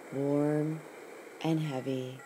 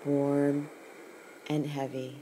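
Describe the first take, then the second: No difference in how they are said.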